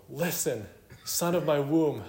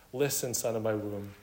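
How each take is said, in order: First: Hammed-up mother, pitched high; overdone motherly plea. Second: Understated, gentle appeal to a son; tender motherly call. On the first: Mother overdoing it over mundane things, hammed-up plea. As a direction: overdo the appeal, raised and insistent. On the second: Acted. Mother urging her son to heed wisdom, gently tender. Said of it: "tender, motherly terms".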